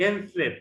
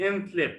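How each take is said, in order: Both takes have the same delivery.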